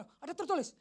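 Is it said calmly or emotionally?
emotionally. It is said loudly with strong emotion.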